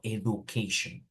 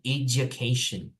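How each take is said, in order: First: The first part sounds like 'ed-oo'. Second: The first part sounds like 'edge'. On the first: The speaker calls it wrong. "not education" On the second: The speaker calls it right. "you say education"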